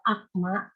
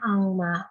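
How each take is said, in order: First: The consonant before 'ma' is a plain k. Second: The consonant before 'ma' is a nasal ng. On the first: The speaker calls it wrong. "harusnya bacanya akma" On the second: The speaker calls it right. "tapi ada tajwid jadinya angma"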